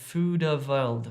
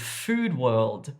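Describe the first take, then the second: First: A small vowel is added after the d. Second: The d links straight into the w. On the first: The speaker calls it wrong. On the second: The speaker calls it right.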